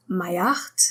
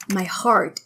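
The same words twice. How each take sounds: First: "heart" said as 'eart; silent H. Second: Said in the usual way. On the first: Shown as a demonstration. Teacher showing the French accent, "heart" without its H. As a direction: drop the H of "heart". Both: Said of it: "H is not supposed to be pronounced".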